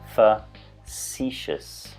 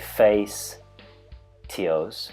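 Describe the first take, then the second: First: The ending is said as a single 'shus' sound. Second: The ending is said as separate 'tee-os' sounds. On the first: The speaker calls it right. "We say facetious" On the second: The speaker calls it wrong. "we don't say face, T-Os"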